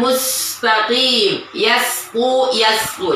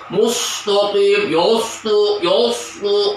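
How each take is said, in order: First: The s sound is thin and light. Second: The s sound is thick and dark. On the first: The speaker calls it right. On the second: The speaker calls it wrong. "jangan sampai"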